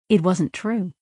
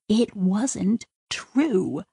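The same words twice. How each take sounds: First: Said in the usual way. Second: "It wasn't true" drawn out very slowly and softly; slow, hushed realisation. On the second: Shown as a demonstration. Sidra quietly admitting to herself, very slow and hushed.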